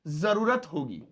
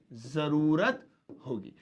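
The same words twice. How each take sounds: First: Said in the usual way. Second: Slow repeat. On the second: Shown as a demonstration. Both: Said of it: "future में भी use कर सकते हैं".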